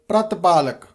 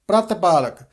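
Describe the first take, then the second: No difference in how they are said.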